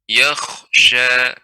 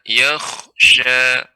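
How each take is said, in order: The two takes are said the same way.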